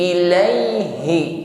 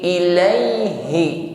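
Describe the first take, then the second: First: The H is voiced clearly from deep in the throat. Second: The same.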